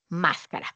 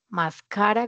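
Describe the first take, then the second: First: The stress is on the first syllable. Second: The stress is on the middle syllable. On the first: "Palabra del grupo número tres" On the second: "grupo dos"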